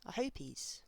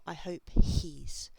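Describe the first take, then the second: First: The h is dropped, linking into 'hopies'. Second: The h is pronounced, keeping the words separate. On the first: The speaker calls it right. "This is hopies... this h sound, it doesn't happen there" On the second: The speaker calls it wrong.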